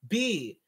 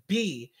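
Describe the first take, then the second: First: The name rhymes with 'see'. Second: The name rhymes with 'see'.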